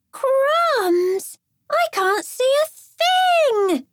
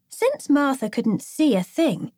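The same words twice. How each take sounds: First: Put-on high, slow girl's panicked cry; girlish yell. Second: Said in the usual way. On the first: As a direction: squeal it out from under the cape. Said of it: "she yelled".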